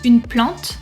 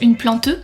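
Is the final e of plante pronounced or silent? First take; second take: silent; pronounced. First: The final e is silent. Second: The final e is pronounced. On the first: The speaker calls it right. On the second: The speaker calls it wrong.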